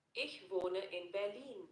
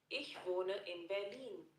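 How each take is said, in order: Both takes have the same delivery.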